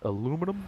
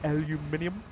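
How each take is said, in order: First: The word is said with four syllables. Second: The word is said with five syllables. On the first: The speaker calls it right. "it is called aluminum" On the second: The speaker calls it wrong. "not aluminium"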